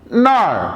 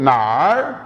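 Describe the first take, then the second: First: The syllable has a sharp falling tone. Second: The syllable has a low dipping tone. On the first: It means there. "Falling tone ... इसका मतलब है वहां" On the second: It asks where. "Third tone ... इसका मतलब है कहां"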